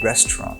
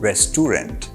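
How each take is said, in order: First: The 'au' vowel in the middle is silent. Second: The 'au' vowel in the middle is sounded. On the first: The speaker calls it right. "এ ইউ লেটার্সগুলি আমরা pronounce করব না" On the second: The speaker calls it wrong. "Not রেস্টুরেন্ট"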